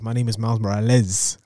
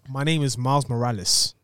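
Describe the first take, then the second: First: The name is said with a Spanish pronunciation. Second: The name is said with a plain English pronunciation. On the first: "when he put that extra Spanish on the side" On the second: "so he says it"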